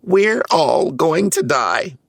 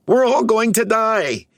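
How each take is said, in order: First: Much higher, slow storybook panic; panicked cry. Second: Even higher, a frantic rising shriek of panic; panicked cry. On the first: Brainy panics about never getting home, slow high wail. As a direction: drag out the doom like a terrified little Smurf. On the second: Brainy repeats his doom to the others, shrill panic. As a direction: push the panic to its peak. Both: A narrator's reading. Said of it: "he cried".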